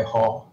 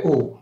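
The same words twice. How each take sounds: First: “雨” read the colloquial way, as in 落雨, seventh tone. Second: “雨” read the literary way, as in 风雨, rising second tone. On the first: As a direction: say “雨” the everyday spoken way, tone seven. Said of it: "落雨的". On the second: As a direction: say “雨” with the reading pronunciation, tone two. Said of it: "风雨的". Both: Shown as a demonstration.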